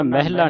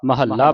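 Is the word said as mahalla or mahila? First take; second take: mahila; mahalla. First: The word is said as mahila. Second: The word is said as mahalla. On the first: The speaker calls it wrong. "ਮਹਿਲਾ ਨਹੀਂ ਪੜਨਾ" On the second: The speaker calls it right. "ਮਹੱਲਾ ਪੜਨਾ"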